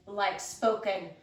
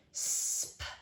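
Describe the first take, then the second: First: Said in the usual way. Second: "spoken" whispered, sounds pulled apart; isolated sounds. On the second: Shown as a demonstration.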